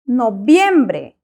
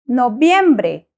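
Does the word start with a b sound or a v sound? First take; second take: b sound; b sound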